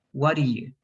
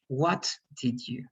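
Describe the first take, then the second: First: "What do you" as "waddiyou", T and last D dropped; contracted past form. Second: "What did you" slowly, each word whole; full form. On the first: Teacher showing the shortened "what did you", contracted. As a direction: run it together as "waddiyou". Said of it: "we don't use that T and we don't use the last D". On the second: Teacher showing the uncontracted past question, full form. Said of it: "we don't use that T". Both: Shown as a demonstration.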